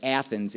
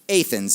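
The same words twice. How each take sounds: First: It uses the common pronunciation of the name. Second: It uses the local pronunciation of the name. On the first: The speaker calls it wrong. "most people would incorrectly pronounce that" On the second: The speaker calls it right. "if you're an Illini, you know the correct pronunciation"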